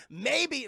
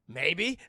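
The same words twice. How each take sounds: First: High, loud, falling exclamation; incredulous echo. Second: Loud single word with a rising end; lightly imitated father's answer; Jonathan Kent. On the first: Real, not acted. Host mocking the father's answer, loud incredulous echo. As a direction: throw the word back in disbelief. Host echoing the line in outrage. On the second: Quoting the father's answer to Clark, lightly acted.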